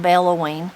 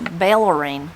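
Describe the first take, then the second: First: The middle syllable has an 'oh' sound. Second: The middle syllable has an 'er' sound.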